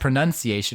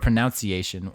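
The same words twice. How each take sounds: First: The second syllable sounds like 'nun'. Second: The second syllable sounds like 'noun'. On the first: "when it's just the U" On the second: "O U"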